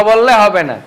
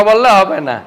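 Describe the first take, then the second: The two takes are said the same way.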